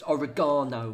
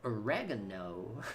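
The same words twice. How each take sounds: First: Said in the usual way. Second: Slow, softer American "Oregano", o-REG-ano; mock American accent. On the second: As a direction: stretch "Oregano" American-style, stressed on the second syllable. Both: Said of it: "It's oregano, mate".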